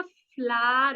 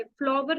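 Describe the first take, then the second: First: "फ्लावर" said as "flar", the w dropped; silent w flower. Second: "फ्लावर" said the wrong way, as "flower" with a full w. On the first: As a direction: say "फ्लावर" in one syllable, like "flar". (सही उच्चारण: "फ्लावर" को "फ्लार") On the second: (गलत उच्चारण: "फ्लावर" में व बोलना) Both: Shown as a demonstration. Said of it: "फ्लावर नहीं होता".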